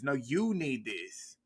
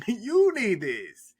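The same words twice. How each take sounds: First: Slow mock Scarface. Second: Hammed-up mocking. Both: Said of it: "She said it to Suki too".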